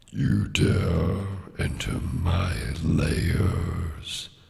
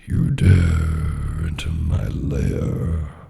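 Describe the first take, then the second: First: The voice has a lighter bass level. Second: The voice has a heavier bass level. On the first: "prepare with the dragon" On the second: "You can turn up the bass a little bit for that"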